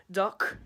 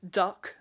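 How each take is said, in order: First: Duck in a Liverpool accent, slowed and drawn out; Scouse duck, final k scraped at the back of the throat. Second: Said in the usual way. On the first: Shown as a demonstration. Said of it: "they'd say duck". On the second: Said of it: "every time they do say".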